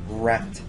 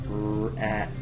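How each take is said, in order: First: The word is said quickly as one unit. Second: The word is split into separate slow sounds. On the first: "Say it faster" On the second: "Sound it out with me"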